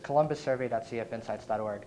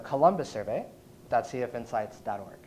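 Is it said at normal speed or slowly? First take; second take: normal speed; slowly. First: It is said at normal conversational speed. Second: It is said slowly and deliberately.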